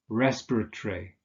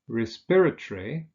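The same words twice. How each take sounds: First: The stress is not on the second syllable. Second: The stress is on the second syllable. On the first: "there are variants" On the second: "we usually stress the second syllable"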